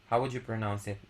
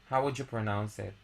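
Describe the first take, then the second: No difference in how they are said.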